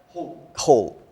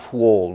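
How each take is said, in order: First: It begins with a plain h sound. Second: It begins with a w-like sound. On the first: The speaker calls it right. "the same exact pronunciation" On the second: The speaker calls it wrong. "Not whole, no"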